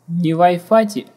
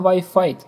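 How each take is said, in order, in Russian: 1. Имитирует неуклюжее, искажённое английское произношение. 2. Используется стандартное английское произношение. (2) "а Wi-Fi"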